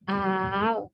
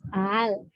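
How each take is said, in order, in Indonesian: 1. Vokal kedua dipanjangkan. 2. Vokal kedua melemah, berada di antara hamzah dan vokal. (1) "Kalau alifnya kan al gitu kan, panjang" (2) "Hamzah keduanya antara hamzah dan alif"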